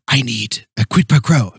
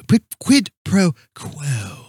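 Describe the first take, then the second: First: "quid pro quo" slipping into "quid pro crow"; fumbled quid pro quo. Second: "quid pro quo" very slowly, word by word; careful quid pro quo. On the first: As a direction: act it, tripping "quo" into "crow". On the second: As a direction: draw out "quo" with a clean kw. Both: Acted. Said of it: "I still can't say it".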